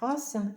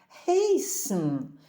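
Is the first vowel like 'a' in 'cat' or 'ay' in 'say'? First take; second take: 'a' in cat; 'ay' in say. First: The first vowel sounds like 'a' in 'cat'. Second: The first vowel sounds like 'ay' in 'say'. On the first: The speaker calls it wrong. "не хасен" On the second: The speaker calls it right. "а хейсен"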